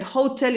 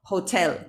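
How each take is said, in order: First: "hotel" stressed on HO, as students say it; wrong first-syllable stress. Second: "hotel" stressed on TEL; correct second-syllable stress. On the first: Retold or imitated. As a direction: imitate the learners' HO-tel in "hotel". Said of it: "mis alumnos siempre dicen hotel". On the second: Shown as a demonstration. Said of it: "y les digo, "No, hotel".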